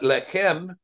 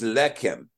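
First: The stress is on the last syllable. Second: The stress is on the first syllable. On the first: The speaker calls it wrong. "So it's not lechem" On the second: The speaker calls it right. "it's lechem"

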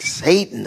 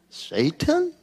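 First: The word is pronounced the English way. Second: The word is pronounced the Hebrew way. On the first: The speaker calls it wrong. "All of our pronunciations are all goofy" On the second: The speaker calls it right. "call it Satan, but in Hebrew"

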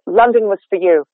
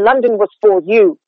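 First: The word 'for' is reduced to a quick schwa. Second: The word 'for' is said fully with rounded lips. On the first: The speaker calls it right. "I'm saying like F and a schwa" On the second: The speaker calls it wrong. "that doesn't sound like a person"

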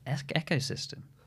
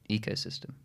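First: The first part sounds like echo. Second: The first part does not sound like echo. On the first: This is a colleague's unusual pronunciation. "But Tom said" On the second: This is the speaker's usual pronunciation. "which is how I would pronounce it as well"

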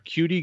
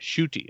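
First: The name begins without an sh sound. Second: The name begins with an sh sound. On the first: The speaker calls it wrong. "Damn it" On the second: The speaker calls it right. "S-H-O-O-T-I is the pronunciation guide for it"

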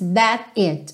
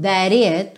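First: There is a small pause between the words. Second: The two words are linked without a pause. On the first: "Ele dá realmente uma pequena pausa aí entre o that e o it" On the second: "Ele poderia dizer"

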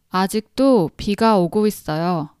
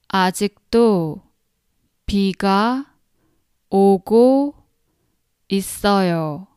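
First: It is said at a faster pace. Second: It is said at a normal, slower pace.

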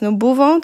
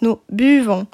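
First: The first vowel of buvons sounds like 'oo'. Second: The first vowel of buvons is a French 'u'. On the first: The speaker calls it wrong. "To nie jest nous buvons" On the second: The speaker calls it right. "to jest nous buvons. Tam jest u"

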